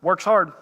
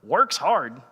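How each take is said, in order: First: Flat, dry "Works hard." said as a calm statement; deadpan reply. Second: "Works hard?" asked with disbelief, falling on "Works"; incredulous question. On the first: Supervisor answering the angry worker, dry deadpan. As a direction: drop "Works hard." plainly, no fuss. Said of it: "He goes". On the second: Worker confronting his friend back at the shop, incredulous. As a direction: question "Works hard?" like you can't believe it. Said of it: "and I was like". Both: Retold or imitated.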